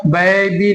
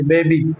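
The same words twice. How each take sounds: First: बेबी with the first vowel widened to a drawn-out "bai-ee"; wrong pronunciation. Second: बेबी with a short, simple "bay" first syllable; correct pronunciation. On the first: Teacher shows learners what to avoid, mispronounced "bai-bee". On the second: Teacher gives learners the right form, correct "bay-bee". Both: Shown as a demonstration. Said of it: "नहीं बोलेंगे".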